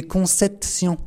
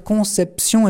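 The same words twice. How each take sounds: First: "conception" with a T for the P, "con-cet-sion"; mispronounced last syllable. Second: Said in the usual way. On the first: Shown as a demonstration. Preacher showing Bernadette's childlike slip, "conception" mispronounced as "concetsion". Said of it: "Elle se trompait sur la dernière syllabe". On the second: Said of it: "Au lieu de dire conception".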